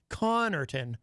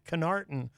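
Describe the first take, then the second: First: The stress is on the first syllable. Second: The stress is on the second syllable. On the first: The speaker calls it right. "the first syllable ends in a double consonant, C O N N, which usually indicates that that is where the emphasis would go" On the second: The speaker calls it wrong. "not Canarton"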